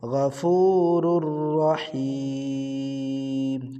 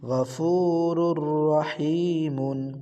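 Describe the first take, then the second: First: It stops with the final vowel stretched long. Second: It ends with an added short 'un' sound. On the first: The reciter stops at this word. "অক্ফ করলে কি হয় মধ্যে আরজি হয় তখন এটা তিন আলিফ টেনে বলিতে হবে" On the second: The reciter continues without stopping. "আর যদি অক্ফ না করেন তাহলে"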